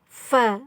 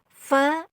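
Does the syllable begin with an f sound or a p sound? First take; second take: f sound; f sound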